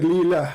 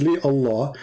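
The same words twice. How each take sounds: First: "Li lah" run together with no full Allah; contracted Li lah. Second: "Li Allah" with Allah said in full as two words; pronounced Li Allah. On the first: Mocking the opponent's version, he says the clipped "Li lah". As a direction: clip it short to "Li lah". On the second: Arguing with an opponent, he says "Li Allah" in full. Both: Shown as a demonstration. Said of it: "and now you just said".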